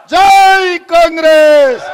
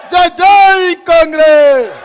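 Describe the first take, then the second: First: Slow, loud rally slogan with జై stretched out; slogan shout. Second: Loud, slow జై, జై Congress with stressed జై; slogan shout. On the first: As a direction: drag out జై Congress at full voice. Closing party slogan shouted. (నెమ్మదిగా, గట్టిగా జై కాంగ్రెస్ నినాదం) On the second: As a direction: chant it to the crowd. Repeat of the slogan. (గట్టిగా జై, జై కాంగ్రెస్ అని నినదించు) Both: Real, not acted.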